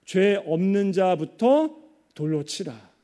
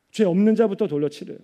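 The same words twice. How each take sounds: First: Slow, deliberate scripture quote; measured quotation. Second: Said in the usual way. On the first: Retold or imitated. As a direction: weigh out each phrase slowly, with pauses. Solemn quote of Jesus's words.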